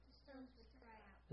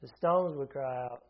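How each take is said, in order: First: Whisper. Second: Said in the usual way. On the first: Shown as a demonstration. Preacher echoes quote.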